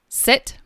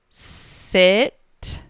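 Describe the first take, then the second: First: The word is said at a normal speed. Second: The word is drawn out very slowly. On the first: "I'm going to say each word normally first" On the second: "then I will repeat each word very slowly"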